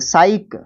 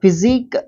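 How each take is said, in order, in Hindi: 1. यह 's' से शुरू होता है और 'sike' जैसा बोला जाता है। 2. यह 'f' से शुरू होता है और 'zik' पर खत्म होता है। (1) "हाँ साइक प्रोनाउंस करेंगे इसको" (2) "नहीं नहीं नहीं नहीं"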